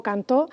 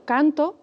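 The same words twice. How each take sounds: First: "cantó" with stress on TÓ; stress on last syllable. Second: "canto" with stress on CAN; stress on first syllable. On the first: Teacher comparing two words of two syllables, stress on TÓ. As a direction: say can-TÓ, final syllable strong. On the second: Teacher comparing two words of two syllables, stress on CAN. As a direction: say CAN-to, drawn out. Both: Shown as a demonstration. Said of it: "tengo el mismo número de sílabas".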